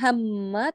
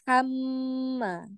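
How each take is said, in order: First: The sound is cut off abruptly. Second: The sound is drawn out and flows on. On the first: The speaker calls it wrong. "Jangan hamma" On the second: The speaker calls it right. "jadi teralir dulu"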